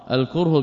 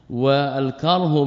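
First: الكره as al-kurh, first vowel u; الكره pronounced kurh with a rounded u after the k; الكره with damma, kurh. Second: الكره as al-karh, first vowel a; والكره pronounced karh with an open a after the k; والكره with fatha, karh. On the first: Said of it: "بالضم". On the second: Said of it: "بالفتح". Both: Shown as a demonstration.

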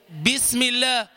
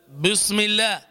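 First: "بسم الله" with light "bi"; thin B. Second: "بسم الله" with thickened, rounded first syllable; heavy B. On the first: Teacher citing the basmala as example, thin B. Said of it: "تقرأ البسملة فتقول". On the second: Teacher showing the wrong basmala, heavy B. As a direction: fatten the ب of بسم. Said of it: "وليس". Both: Shown as a demonstration.

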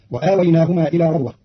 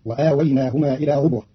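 First: Said in the usual way. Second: ربوة said "rubwa" with u after r; ربوة بضم الراء; ra with damma. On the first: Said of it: "قرأ قالون كلمة ربوة بضم الراء". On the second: Shown as a demonstration. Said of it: "بضم الراء".

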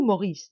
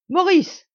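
First: Said in the usual way. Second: A loud, high shout of the son's name; cried out. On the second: A narrator's reading. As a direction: call him back across the crowd. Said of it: "cria-t-il".

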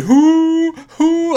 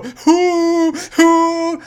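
First: Hooting. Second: Loud high hooting; kid's hoot. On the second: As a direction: hoot instead of laughing. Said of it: "he'd go". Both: Retold or imitated.

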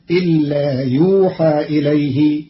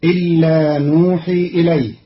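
First: يوحى as yuuhaa, passive; Qalun reading yuuhaa. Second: نوحي with a first n; Hafs reading nuhi. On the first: Teacher shows Qalun's passive form, pron. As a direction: start يوحى with a y, end in aa. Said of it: "بياء بدل النون مضمومة وفتح الحاء". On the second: Teacher recites the Hafs form first, pron. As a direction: begin نوحي with an n. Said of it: "قرأ قالون كلمة نوحي". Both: Shown as a demonstration.

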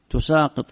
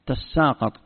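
First: "تساقط" said tusaaqit; opening u and single s in "تساقط"; variant reading. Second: "تساقط" said tassaaqat; doubled s and a-vowels in "تساقط"; variant reading. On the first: Teacher shows the other reading, "تساقط" as tusaaqit. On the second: Teacher shows one reading, "تساقط" as tassaaqat. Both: Shown as a demonstration. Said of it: "تقرأ".

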